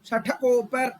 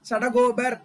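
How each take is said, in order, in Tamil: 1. இந்த வார்த்தை 'sh' ஒலியில் தொடங்குகிறது. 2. இந்த வார்த்தை 's' ஒலியில் தொடங்குகிறது. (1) "ஷடகோபர் அப்படிங்கறத கரெக்ட்" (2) "கரெக்ட் ப்ரொனன்சியேஷன் கிடையாது சம்ஸ்கிருதத்துல"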